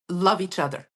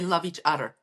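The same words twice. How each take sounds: First: The th sound in other is pronounced normally. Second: The th sound in other is replaced.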